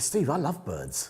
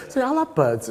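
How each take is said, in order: First: Slow, softer, slyly pleased; sly confession. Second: High and bright with glee; gleeful. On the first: Student slyly telling his tutor he loves birds. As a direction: let it slip with a grin. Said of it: "I said". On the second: Student gleefully realising the fashion photographer trick. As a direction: crow it out, delighted. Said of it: "It's like". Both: Retold or imitated.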